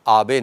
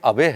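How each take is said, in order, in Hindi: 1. पहला स्वर लंबा और खुला है। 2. पहला स्वर छोटा है, स्लैंग शब्द की तरह। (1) "हमने राहत की सांस ली कि उनका नाम आबे निकला" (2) "कितना अजीब लगता है, अबे हम कैसे बोलते हैं"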